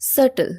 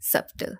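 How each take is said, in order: First: The word is said without a b sound. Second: The word is said with a b sound. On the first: The speaker calls it right. "উচ্চারণের সময় এটা উজ্জ থাকবে" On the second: The speaker calls it wrong. "আমরা বির উচ্চারণটা আমরা করি"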